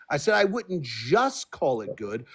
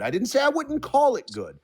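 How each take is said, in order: First: Slow, "just" leaned on deliberately; stress on just. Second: "didn't say" pushed high and hard; stress on didn't say. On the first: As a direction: spell it out slowly, hitting "just". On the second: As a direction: lift "didn't say" up sharply, then fall. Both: Real, not acted.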